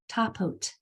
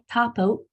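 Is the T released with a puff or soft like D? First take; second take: released; soft. First: The T is released with a strong puff. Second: The T is soft and sounds like D. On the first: The speaker calls it right. "read it like it was intended" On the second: The speaker calls it wrong. "don't let it just sit there like a D or like a non-sound"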